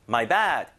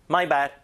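First: The stress is on bad. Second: The stress is on my.

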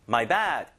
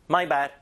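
First: The stress is not on my. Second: The stress is on my.

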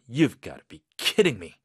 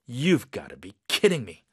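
No difference in how they are said.

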